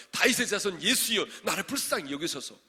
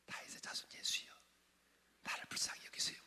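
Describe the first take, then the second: First: Loud, high desperate plea; crying out. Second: Whispered, soft little plea; mock timid whisper. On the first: Acted. Blind man calling to Jesus for mercy, crying out. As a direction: call it out at full voice. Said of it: "얼마나 여러분 소리를 진짜 불러". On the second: Shown as a demonstration. Preacher showing how the blind man did not call, timid whisper. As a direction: whisper it as a feeble, hushed call. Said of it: "이렇게 한 줄 아세요?".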